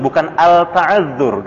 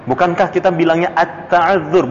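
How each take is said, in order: First: Al-ta'azzur slowly, l clearly sounded; wrong reading. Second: At-ta'azzur, l merged into a doubled t; plain. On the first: Ustaz slowly showing the wrong al-ta'azzur to students. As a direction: say al-ta'azzur slowly, l not assimilated. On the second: Ustaz giving the right reading at-ta'azzur to students. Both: Shown as a demonstration.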